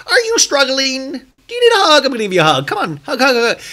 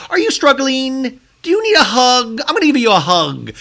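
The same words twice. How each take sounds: First: Very high sing-song mock sweetness; condescending, hammed up. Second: Condescending. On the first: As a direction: overdo the patronizing hug offer. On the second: Retold or imitated. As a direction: talk down with a fake-sweet voice. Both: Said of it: "sounds so condescending".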